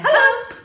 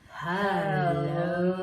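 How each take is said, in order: First: It is said very fast. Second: It is said very slowly.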